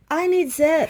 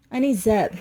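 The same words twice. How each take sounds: First: Higher and louder mock cry of I need Zeb; theatrical higher, louder call for Zeb; mock plea. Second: Said in the usual way. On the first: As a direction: wail it like a helpless plea. Pleading for help with wiring.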